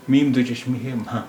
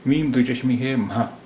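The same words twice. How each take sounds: The two takes are said the same way.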